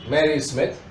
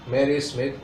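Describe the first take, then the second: The two takes are said the same way.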